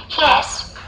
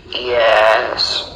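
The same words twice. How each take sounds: First: Put-on high little girl's answer. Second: Low mumble, mouth barely open; mumbling lion. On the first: Little girl answering the register, high child voice. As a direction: answer roll-call as a small child, pitched up. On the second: Lion answering the register warily, low mumble. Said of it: "He mumbled, opening his mouth as little as possible". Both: A narrator's reading.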